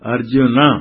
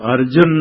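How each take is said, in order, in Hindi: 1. शब्द छोटे 'a' स्वर से खत्म होता है। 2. शब्द 'n' व्यंजन पर खत्म होता है। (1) "अर्जुन न बोल करके थोड़ा अ करके" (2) "अर्जुन नहीं"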